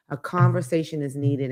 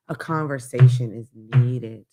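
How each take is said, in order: First: Said in the usual way. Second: Slowed down. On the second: Shown as a demonstration. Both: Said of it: "that's why I'm slowing down to say".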